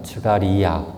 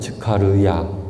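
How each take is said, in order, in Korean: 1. 이 이름은 부드러운 G 소리로 발음해요. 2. 이 이름은 거센 K 소리로 발음해요. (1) "이름이 예전엔 즈가리아였잖아요. 즈가리아 이렇게 했었는데" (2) "원어 발음을 교회에서 채택하기로"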